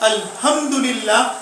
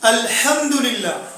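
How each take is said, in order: First: The h is a plain light sound. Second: The h is a strong throaty sound. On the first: The meaning becomes wrong. The speaker calls it wrong. "बड़ी हा निकाले बगैर ... यानी अगर छोटी हा पढ़ लेता है" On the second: All praise is for God. The speaker calls it right. "वहां यही हा है, यानी बड़ी हा है।"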